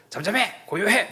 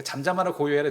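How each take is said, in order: First: Higher, louder barked command; harsh scolding. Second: Gentle calming. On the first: Preacher mocks a harsh rebuke to the sea, barked command. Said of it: "이런 뉘앙스가 아닌 거죠". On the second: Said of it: "뉘앙스가 이런 거예요". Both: Shown as a demonstration.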